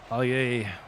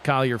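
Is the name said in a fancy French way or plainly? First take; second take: fancy; plain. First: The name is said in a fancy French way. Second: The name is said in a plain English way. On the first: The player has earned a more impressive name. "we'll upgrade his name to the fancier pronunciation" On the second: The player has not yet earned the upgrade. "he's still Collier for now"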